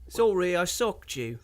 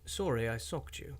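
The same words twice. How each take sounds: First: It is said in a Liverpool accent. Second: It is said in a generic British accent.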